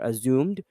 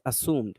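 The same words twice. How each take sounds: First: A y sound comes before the vowel. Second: No y sound comes before the vowel. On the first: The speaker calls it wrong. "or assumed" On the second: The speaker calls it right. "There's no y sound"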